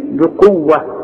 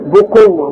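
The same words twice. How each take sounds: First: بقوة begun as bi-quwwa; correct bi. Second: بقوة wrongly begun as bu-quwwa; mistaken bu. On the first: Shown as a demonstration. Teacher correcting a common mistake, bi opening of بقوة. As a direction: give the b of بقوة a clear i vowel. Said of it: "ما عندك أهي بي". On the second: Retold or imitated. Teacher mimicking people's mistake, bu instead of bi in بقوة. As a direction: round the first vowel of بقوة into u. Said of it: "لأن في ناس تقول لك".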